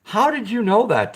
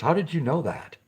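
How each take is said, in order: First: Surprised. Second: Said in the usual way. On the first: Real, not acted. Repeats question to chat viewer.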